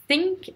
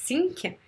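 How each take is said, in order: First: "think" with a true voiceless th; th between teeth. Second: "think" said as "sink"; plain S for th. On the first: Teacher giving the correct word for penser, "think" with a lisped th. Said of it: "avec le T H entre les dents". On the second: Teacher showing the French learner's mistake, "think" pronounced "sink". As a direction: say "think" with a simple S, tongue behind the teeth. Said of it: "juste le S". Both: Shown as a demonstration.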